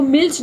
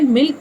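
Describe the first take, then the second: First: मिल्च said as 'milch', ending in a ch sound, shown as the wrong way; wrong reading milch. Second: मिल्क said plainly as 'milk', ending in a k sound; correct reading milk. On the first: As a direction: read मिल्च with a final ch, as the mistake. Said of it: "इसको मिल्च नहीं पढ़ते हैं". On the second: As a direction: say मिल्क with a clean k at the end, the right way. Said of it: "मिल्क ही पढ़ा जाता है". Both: Shown as a demonstration.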